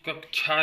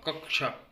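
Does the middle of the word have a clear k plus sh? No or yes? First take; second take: no; yes. First: The middle cluster lacks a clear k-sh combination. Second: The middle cluster is a clear k plus sh. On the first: The speaker calls it wrong. "कक्षा नहीं होता" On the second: The speaker calls it right. "क्योंकि का plus सा से मिलके बनता है"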